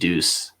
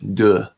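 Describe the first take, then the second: First: The word ends with a clear s sound. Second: The word ends on a vowel, no s sound. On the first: "but I pronounced it Deuce" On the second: "however you pronounce it in French"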